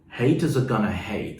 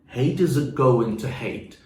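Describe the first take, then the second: First: Going to is contracted to gonna. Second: Going to is said in full.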